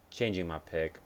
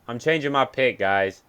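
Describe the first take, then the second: First: Said in the usual way. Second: Louder, pitch up, big reveal; excited announcement. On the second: Real, not acted. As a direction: announce the switch to the viewers.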